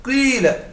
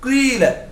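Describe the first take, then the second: First: The first vowel mixes i with rounded lips. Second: The same.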